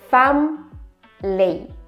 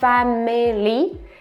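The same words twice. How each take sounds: First: The word is said with two syllables. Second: The word is said with three syllables. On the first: The speaker calls it right. "there are only two syllables" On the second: The speaker calls it wrong. "It's not family"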